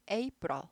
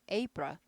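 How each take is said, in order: Both takes have the same delivery.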